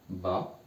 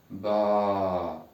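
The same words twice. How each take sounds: First: BA with a short A; short vowel. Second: BA with the A held long; long vowel. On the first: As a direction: keep the A of BA brief. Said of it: "On a déjà appris fatha". (BA avec un a bref) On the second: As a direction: stretch out BA for learners to copy. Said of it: "On prolonge". (BA avec un a prolongé) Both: Shown as a demonstration.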